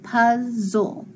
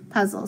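First: "puzzle" drawn out as puz, zul; sounded out in syllables. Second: Said in the usual way. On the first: Shown as a demonstration. Teacher blending two syllables for pupils, sounded out. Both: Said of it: "So I just have".

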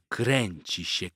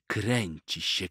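Both takes have the same delivery.

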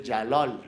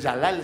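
First: "Yalol" with the second vowel rounded to O. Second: "Yalal" with a clear A in both syllables; Yalal con A. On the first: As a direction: say "Yalol", the last A turned into O. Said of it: "realmente mi nombre es Yalol". ("Yalol" con la segunda vocal como O) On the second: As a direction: say "Yalal" as spelled, open A at the end. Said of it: "entonces no es Yalal". ("Yalal" con las dos aes abiertas) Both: Shown as a demonstration.

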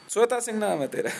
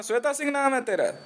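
First: Shweta Singh नाम है तेरा। stated flatly, stress on Shweta, falling; flat statement. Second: Shweta Singh नाम है तेरा? asked mockingly, stress on नाम, higher pitch; taunting question. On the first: Confirming the news anchor's name, flat mocking statement. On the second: Taunting the news anchor, mocking question about her name. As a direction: sneer the name back as a question, leaning on नाम. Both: Shown as a demonstration.

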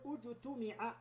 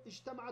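First: اجتمع said slowly as ujtumi'a, u on the first vowel; passive pronunciation. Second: Said in the usual way. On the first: Shown as a demonstration. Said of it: "عند البناء للمجهول". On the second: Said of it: "نقول اجتمع".

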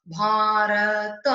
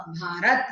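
First: भारत drawn out slowly as "bhaa-ra-ta"; sound by sound. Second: Said in the usual way. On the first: Shown as a demonstration. Teacher building the word for students, भारत sounded out slowly. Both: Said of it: "वर्ण विच्छेद".

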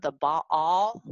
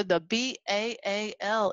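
First: "Baal" with two open vowels, bah-ALL; school pronunciation. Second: "Baal" said as one drawn-out BAIL; Texas pronunciation. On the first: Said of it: "When I went to school". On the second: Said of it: "That's how they said it in Texas". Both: Shown as a demonstration.

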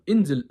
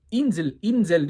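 First: Insel, baştaki i ı'ya yakın, yüksek sesle; INSEL'i ı gibi kısa sesle başlat, güçlü söyle; doğru Almanca i. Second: Insel, uzatılmış net i ile, yavaşça; INSEL'in i'sini incelt ve uzat; yanlış ince i. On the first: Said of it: "ı diyorlar". (Almanca telaffuzlu Insel) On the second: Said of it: "Insel, Insel demiyorlar". (yanlış örnek, uzun i'li Insel) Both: Shown as a demonstration.

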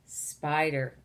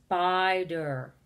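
First: Said in the usual way. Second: "spider" with a long hissed s at the start; stretched first sound. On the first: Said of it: "begins with the S sound". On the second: Shown as a demonstration. Teacher asks which word begins with S, "spider" opening on long sss. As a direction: hold the s of "spider" before finishing the word. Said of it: "with the S sound".

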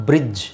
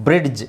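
First: ಬ್ರಿಡ್ಜ್ with only a J sound at the end; silent D. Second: ಬ್ರಿಡ್ಜ್ with a hard D before the J; D pronounced. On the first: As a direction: leave the D out of ಬ್ರಿಡ್ಜ್. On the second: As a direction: sound out the D in ಬ್ರಿಡ್ಜ್. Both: Shown as a demonstration. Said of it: "ಡಿ silent ಮಾಡಬೇಕು".

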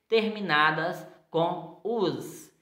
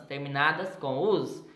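First: "us" drawn out slowly and stressed; stressed ending. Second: Said in the usual way. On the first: Shown as a demonstration. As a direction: linger on "us" so the ending is heard. (terminação "us" dita devagar e marcada)

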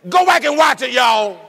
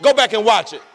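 First: Louder urging. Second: Said in the usual way. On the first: Real, not acted. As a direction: insist they go watch it.

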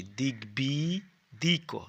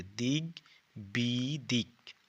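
First: দিকবিদিক spelt out very slowly, syllable by syllable, with a rise at the end; slow model reading of দিকবিদিক for children; careful pronunciation. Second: দিকবিদিক very slow and drawn out, falling at the end; slow model reading of দিকবিদিক with a falling close; careful pronunciation. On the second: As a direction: say দিকবিদিক slowly and fully, closing it down. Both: Shown as a demonstration. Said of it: "এভাবে উচ্চারণ করবে".

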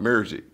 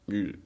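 First: Music said like murzik, with an r; music as murzik, mocking the cousin; southern mock. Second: Said in the usual way. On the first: Imitating an Arkansas cousin's pronunciation, murzik. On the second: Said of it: "Hold on, music".

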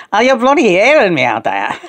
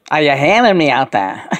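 First: Emphatic Scouse repeat, punching "bloody". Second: Channeled Scouse voice. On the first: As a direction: say it in Scouse with more force. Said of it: "Talk scours". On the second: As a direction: call out in Scouse, first take. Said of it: "say that again". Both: Pretend.

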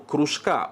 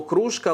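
First: «кружка» with the stress on the final syllable, кружкА; stress on last syllable. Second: Said in the usual way. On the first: Shown as a demonstration. Teacher showing viewers the adverb, final syllable stressed. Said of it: "у якому наголос падає на останній склад". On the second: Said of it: "наголос падає на останній склад".

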